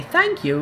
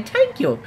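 First: "thank you" with a soft th; standard "th" in thank. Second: "thank you" said as "tank you"; Irish hard T. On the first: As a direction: say "thank you" with the tongue between the teeth on th. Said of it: "we don't say thank you". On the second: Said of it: "We say thank you". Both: Shown as a demonstration.

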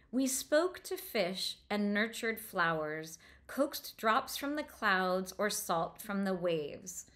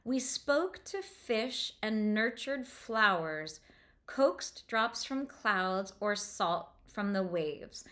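First: Slow literary reading. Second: Slower still, leaning on the vowels; rereading to show the internal rhyme; slow reread for the sounds. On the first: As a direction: read the line slowly, savoring each sound. Teacher reading the quoted sentence aloud. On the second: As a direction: bring out the long O sounds. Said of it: "So this O sound of spoke". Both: Shown as a demonstration.

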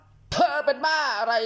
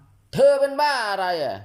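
First: Much higher, louder shouted retort; shouting back. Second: Higher, louder, slow exasperated snap. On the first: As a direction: yell it back at an angry partner. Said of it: "พร้อมตะโกนกลับไปว่า". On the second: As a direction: drag it out, fed up with your partner. Quoted hurtful sentence. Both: Acted.

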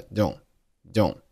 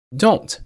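First: "don't" ending on n, t left off; lower, slower "don't" with no final burst; silent T. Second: Said in the usual way. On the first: Shown as a demonstration. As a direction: leave the t off "don't". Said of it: "这个t可以不发音".

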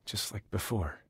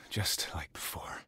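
First: Said in the usual way. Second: Slow bitter whisper. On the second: Acted. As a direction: breathe it out, slowly and bitterly. Alternate take of same line.

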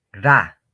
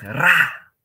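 First: RA with a short, untrilled R, low-pitched; correct soft R. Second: RA with a strongly trilled R, loud; wrong rolled R. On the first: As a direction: say RA with one light tap. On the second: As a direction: show the mistake: roll the R in RA hard. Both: Shown as a demonstration. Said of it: "No es ra".

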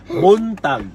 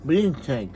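First: "Buntag" said higher and louder to correct; emphatic teaching. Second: Said in the usual way. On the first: Shown as a demonstration. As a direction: stress "Buntag" firmly as a teacher. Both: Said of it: "Just follow my language".

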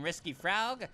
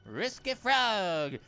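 First: Said in the usual way. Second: Slow, drawn-out mock French; loud, lingering French-accented name. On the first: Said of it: "I don't know why I went to a French accent". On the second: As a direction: draw it out with a playful French accent. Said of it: "I went to a French accent".

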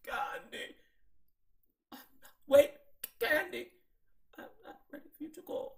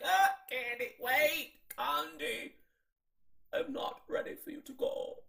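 First: High urgent mock [name], ending in a laughing whisper; imitating [name] again. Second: High put-on [name] voice, fading to a whisper; mock [name] pleading with Kandi, much higher; imitating [name]. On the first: [name] begging Kandi to stay, high laughing mock voice. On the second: [name] asking Kandi not to leave, high put-on voice. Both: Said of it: "She didn't say it quite like that".

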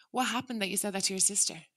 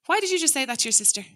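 First: Softer, even, unhurried question; calm curious ask. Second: Accusing scold. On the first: Parent calmly asking a child about the sister, curious. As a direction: ask gently, wanting to understand. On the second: Parent scolding a child for words to the sister, accusing. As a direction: rattle off the reproach. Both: Shown as a demonstration.

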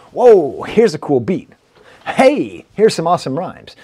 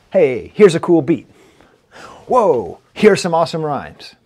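First: Louder, with a burst on whoa; mock excited listener. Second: Louder, hyped-up mock enthusiasm; mock excited listener. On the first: Reviewer repeating the gushing for the next track, mock hyped. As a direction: gush again, mock hyped. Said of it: "Next track". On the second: Reviewer mocking the album's sameness, hyped-up voice. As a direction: parody a fan gushing over each track. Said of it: "it's like this".

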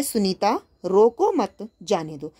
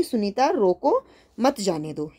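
First: रोको मत said as one unit, then a break before जाने दो; teacher's demo of a comma after मत; pause after मत. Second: रोको set apart by a comma break, मत joined to जाने दो; teacher's demo of a comma after रोको; pause after रोको. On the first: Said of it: "जब मत के बाद लगा". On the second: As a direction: stop after रोको, then run मत जाने दो together. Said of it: "ये रोको के बाद जब लगा". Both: Shown as a demonstration.

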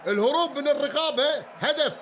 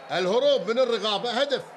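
First: Higher, with a rise on الرقابة; raised catchphrase. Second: Said in the usual way. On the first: Shown as a demonstration. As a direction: sing out الهروب من الرقابة هدف.

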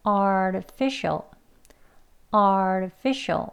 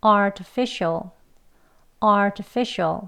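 First: Artificial slowly as ar-duh-FISH-ul; linked flap T. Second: Artificial with crisp T, strongest on FISH; clear T, stressed syllables. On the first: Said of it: "뒤에 음절까지요". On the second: Teacher models stress for learners, artificial with a clear T. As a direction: say artificial as ar-t-FISH-ul, falling at the end. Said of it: "그렇게 발음을 하시면". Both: Shown as a demonstration.

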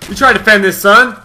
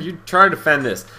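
First: High, loud mock taunt; hammed-up aggressive shout; shouted challenge. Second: Said in the usual way. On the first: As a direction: yell it like trash talk at a rival. Acted challenge, repeated as a shout.

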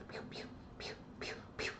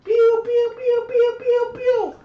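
First: Tiny whispered pew sounds; whispered gunshots. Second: Very high, loud mouth-made laser pew sounds; gunshot noises. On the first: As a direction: breathe the pews out barely audible. They're just straight up like. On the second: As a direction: fire off cartoon blasters with your mouth. This is what not to do. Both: Shown as a demonstration.

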